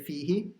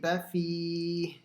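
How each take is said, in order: First: The word ends with a final i vowel. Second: The word ends on a bare h sound. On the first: The speaker calls it wrong. "So I didn't say fihi" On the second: The speaker calls it right. "that's a stop sign at the end, so I made it a sakin"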